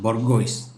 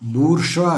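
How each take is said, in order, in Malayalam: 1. ഇത് എഴുതിയിരിക്കുന്നതുപോലെ വായിക്കുന്നു, 'goyce' എന്നു അവസാനിക്കുന്നു. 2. ഇത് 'boor' എന്നു തുടങ്ങി 'zhwa' എന്നു അവസാനിക്കുന്നു. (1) "ആരും ഇതിനെ ബൊർഗോയ്സ് എന്നേ വായിക്കുള്ളൂ" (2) "ബൂർഷ്വ അല്ല"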